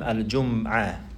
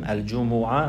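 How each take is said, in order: First: No vowel follows the m. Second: A short u vowel follows the m. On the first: "with the sukoon on the mim" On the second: "on the dhamma on the jim and the mim"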